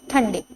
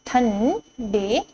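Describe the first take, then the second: First: Said in the usual way. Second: ठंडे drawn out slowly, rising end; slow teacher drill; slow sounding out. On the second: Shown as a demonstration. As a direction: stretch ठंडे syllable by syllable. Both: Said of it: "तो ये क्या लिखा हुआ है".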